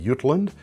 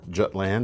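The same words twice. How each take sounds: First: It is pronounced the Scandinavian way. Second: It is pronounced the English way.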